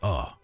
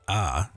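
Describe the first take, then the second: First: The vowel is a rounded 'oh' sound. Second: The vowel is an open 'ah' sound. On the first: The speaker calls it right. "it's oh" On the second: The speaker calls it wrong. "it's not ah"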